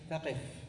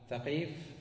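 First: ثقف higher, with short i: "thaqif"; ya dropped. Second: Said in the usual way. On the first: Shown as a demonstration. Teacher showing the word after deletion, ثقف said "thaqif". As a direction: say ثقف as tha-qif, no long vowel. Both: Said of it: "بعد حذف الياء".

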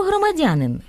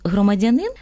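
First: «громадянин» stressed on the third syllable, громадЯнин. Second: «громадянин» stressed on the final syllable, громадянИн; stress on last syllable. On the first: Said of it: "наголошується на тому ж складі". («громадянин» — наголос на «дя») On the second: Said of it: "А наголос". («громадянин» — наголос на «нин») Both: Shown as a demonstration.

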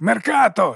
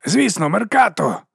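First: "Меркато!" cried out higher in hammed-up cheer; falsely cheered name. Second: A slow, dim-witted higher cheer; dull agreement. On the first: Morvir mimics the crowd, cheering "Меркато!" in mock zeal. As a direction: sing out "Меркато!" like a false fan. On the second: Dim labourer agrees with his cheering friends, slow and dull. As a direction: sum it up slowly like a dullard. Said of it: "тупо підсумував він". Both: A narrator's reading.

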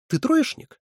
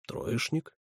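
First: High, leaping question; incredulous question. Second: Subdued answer. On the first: Someone questions the boy about his grades, incredulous. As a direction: ask it sharply with pitch shooting up. Sharp question in acted dialogue. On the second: The boy admits his grades, subdued. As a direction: admit it quietly. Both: A narrator's reading.

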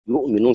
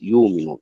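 First: يؤمنون with a glottal stop after يُـ; original hamza pronounced. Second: يؤمنون as yuuminun, long uu without glottal stop; hamza replaced by waw. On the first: Teacher shows students the original word, يؤمنون with hamza sounded. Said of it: "يؤمنون صارت يؤمنون". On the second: Teacher shows the replacement rule, يؤمنون with long uu, no hamza. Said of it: "صارت يؤمنون". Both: Shown as a demonstration.

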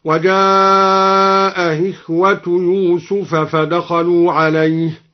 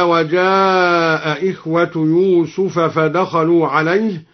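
First: Very slow chant, "إخوة" glided into without a glottal stop; softened second hamza. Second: Slow recitation, clear second hamza opening "إخوة"; both hamzas sounded. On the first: Reciter demonstrates al-Duri's reading, "إخوة" with softened hamza. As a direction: draw out "وجاء", ease the hamza of "إخوة". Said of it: "سهل الهمزة الثانية هكذا". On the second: Reciter cites the verse, full hamza on "إخوة". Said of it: "سهل الهمزة الثانية". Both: Shown as a demonstration.

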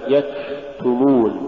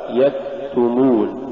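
First: يكتمون with a long rush of air after ك; exaggerated hams. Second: Said in the usual way. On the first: Shown as a demonstration. Teacher showing exaggeration, long airy kaf in يكتمون. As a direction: drag out the breathy release of ك in يكتمون. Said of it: "أو يبالغ فيها هكذا". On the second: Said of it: "والصواب".

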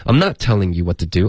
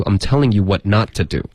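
First: "not" stressed early, before "telling"; connected reading, weight on "not telling"; contrast drill. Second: "not" stressed late, in "what not to do"; connected reading, weight on "what not"; contrast drill. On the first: Teacher drills two sentences together, stress on first "not". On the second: Teacher drills two sentences together, stress on moved "not". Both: Shown as a demonstration. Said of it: "所以你连着说".

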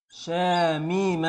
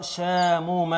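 First: Stretched شاميم with a long ee in the middle; drawn-out i. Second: Stretched شاموم with a long oo in the middle; drawn-out u. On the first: Teacher asks class which past-tense form, drawn-out شاميم with ee. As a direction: say شاميم slowly as "shaa-mee-ma". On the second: Teacher offers class the alternative form, drawn-out شاموم with oo. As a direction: say شاموم slowly as "shaa-moo-ma". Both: Shown as a demonstration. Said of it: "ولا يا ترى شاموم".

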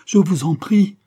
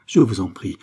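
First: Very high, loud, rising entreaty; desperate climactic plea. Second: Loud plea at usual pitch, falling. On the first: Mother begging the men for mercy, desperate cry. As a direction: cry the plea out, pitch leaping upward. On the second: Mother begging the men for mercy, falling plea. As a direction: plead firmly, letting the tune drop. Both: Acted.

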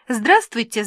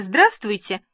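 First: Bright, louder chirpy hello; eager chirpy greeting; chirping greeting. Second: Second chirpy greeting; chirping repeat. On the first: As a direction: chirp a welcome at the door. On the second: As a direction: chirp it again to the guests. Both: A narrator's reading. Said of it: "щебетала я".

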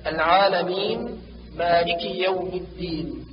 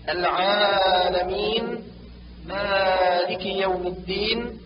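First: العالمين مالك with moderately long aa; natural two-count madd. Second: Slow العالمين مالك with long aa held too long; overstretched natural madd. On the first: Teacher corrects, العالمين مالك with measured vowels. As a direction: keep the aa of العالمين and مالك short of dragging. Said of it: "والصواب". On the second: Teacher shows a disliked habit, العالمين مالك with stretched vowels. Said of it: "يكره الزيادة في المد الطبيعي". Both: Shown as a demonstration.

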